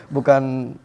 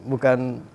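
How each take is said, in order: No difference in how they are said.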